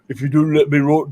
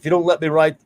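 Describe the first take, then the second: First: It is said in an imitated put-on voice. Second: It is said in the speaker's normal voice.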